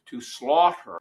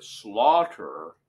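First: Said in the usual way. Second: Slaughter said alone, louder and weighted; stress on slaughter. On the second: Shown as a demonstration. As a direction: lean hard on slaughter as its own word. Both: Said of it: "emphasize that word".

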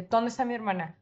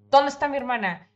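First: Firm demand. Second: "¿Dónde está mi hermana?" repeated higher and louder, "dónde" hit hard; louder angry repeat. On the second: Gripping the guy's shirt, demanding her sister again, louder. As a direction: shout the question the second time. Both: Retold or imitated. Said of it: "lo agarré de la camisa".

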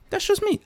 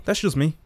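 First: "That's just me." echoed much higher, squeaky. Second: Said in the usual way. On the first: Shown as a demonstration. Comic mocking his own remark in a high squeak. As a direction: squeak the words back at yourself. Repeats the line, then squeaks it.

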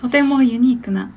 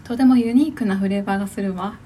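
First: A touch of an elegant lady voice; lightly voiced rich young lady; haughty rich girl Japanese. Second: Lightly played posh young lady; a hint of a refined heiress voice; haughty rich girl Japanese. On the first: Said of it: "今のお嬢様言葉で". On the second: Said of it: "お嬢様で行くんだ".

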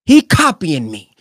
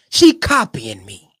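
First: Slow, sulky mock complaint; childish slow complaint; mock whine. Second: Lower, slow sulky complaint; lower mock whine. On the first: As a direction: drag it out like a jealous kid. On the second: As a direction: sink the voice, pout it out slowly.

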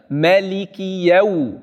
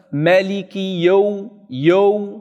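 First: "Maliki Yaw" with an open "ya" before the w; corrected pronunciation. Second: "Maliki Yaw" with Yaw rounded to "yo"; common mistake. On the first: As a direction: slowly finish the "a" in "Yaw", then glide to w. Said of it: "Eerst de fetha afmaken". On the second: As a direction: slowly show the faulty "Yaw" as one "yo" sound. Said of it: "dat heel veel mensen zeggen". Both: Shown as a demonstration.

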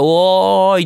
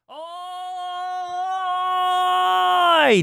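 First: The same hail, now moving in toward the mic; call coming closer. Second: A long drawn-out hail from far across the room, well off the mic; distant call. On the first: Showing listeners a call that approaches the mic. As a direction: call out while stepping up to the microphone. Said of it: "って言いながら近-、マイクに近づいただけ". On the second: Showing listeners how distance alone makes a far-off call. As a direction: call out from far away, stretching the vowel as if across a field. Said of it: "ってやってるのって別にマイクの設定何にもいじってない". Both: Shown as a demonstration.

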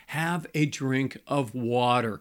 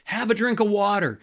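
First: Slow and steady, spelling out the advice; slow, deliberate advice. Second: Higher and louder, driving the point home; emphatic repeat. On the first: Pastor advising angry couples, slow and deliberate. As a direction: lay it out slowly, each word weighed. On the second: Pastor repeating his advice to couples, higher and louder. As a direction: punch the repeat up, like a firm command. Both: Shown as a demonstration. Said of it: "But my point is this".

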